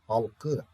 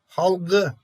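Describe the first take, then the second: First: The consonant before the ending is a voiceless k. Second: The consonant before the ending is a voiced g. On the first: The speaker calls it right. "Burada maalesef bir yumuşam olmuyor" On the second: The speaker calls it wrong. "hayır"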